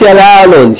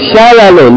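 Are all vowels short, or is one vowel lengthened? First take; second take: one long; all short. First: One vowel is drawn out long. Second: All the vowels are said short. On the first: The speaker calls it wrong. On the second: The speaker calls it right. "short vowel, short vowel, tanween. No long vowels here"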